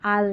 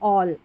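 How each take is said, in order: First: The vowel is an open 'aa' sound. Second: The vowel is a rounded 'aw' sound. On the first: The speaker calls it wrong. "आल नहीं" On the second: The speaker calls it right. "ऑल का मतलब सब"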